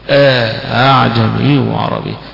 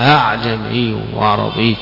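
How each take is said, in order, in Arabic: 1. تُسهَّل الهمزة الثانية بعد إدخال ألف. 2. تُسهَّل الهمزة الثانية بين الهمزة والألف. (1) "يسهل مع إدخال الألف" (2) "فالهمزة الثانية مسهلة، وإنما هي بين الهمزة والألف"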